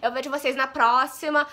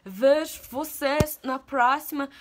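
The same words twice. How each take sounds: First: Said in the usual way. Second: "Vejo vocês na próxima" drawn out very slowly in a borrowed foreign accent; amateur foreign accent, each word of "Vejo vocês na próxima" stretched; put-on accent. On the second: Shown as a demonstration. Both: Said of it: "gostado do meu sotaque".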